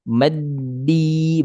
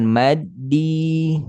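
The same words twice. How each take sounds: First: The first syllable is short and unstressed. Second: The first syllable is long and pressed. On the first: The speaker calls it right. "Ma-nya pendek. Nggak ditekan pada ma" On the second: The speaker calls it wrong. "Bukan maddi"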